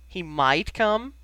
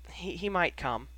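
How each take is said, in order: First: Loud, slow disbelieving question, rising at the end; incredulous echo. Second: Said in the usual way. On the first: A narrator's reading. Sirius echoing Ginny's words back, incredulous. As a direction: draw out MIGHT and COME in disbelief.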